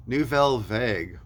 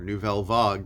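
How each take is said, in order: First: "Vague" pronounced "vehg", not "vahg"; "Vague" rhymes with "egg". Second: "Vague" pronounced French-style, like "vahg". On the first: Record reviewer offering one pronunciation of a band name, "Vague" as "vayg". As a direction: say "Vague" like "vayg", English short-to-long A. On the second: Record reviewer offering an alternative band-name pronunciation, "Vague" as "vahg". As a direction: say "Vague" with an open "ah". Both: Shown as a demonstration. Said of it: "depending on how you pronounce it".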